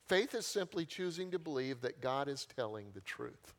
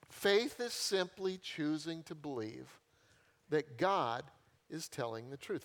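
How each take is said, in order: First: Said in the usual way. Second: Faith is simply choosing to believe said slowly, word by word; slow it right down to drive the definition home; slow emphatic repeat. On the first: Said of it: "repeated definition". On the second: Shown as a demonstration. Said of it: "repeated slowly for emphasis".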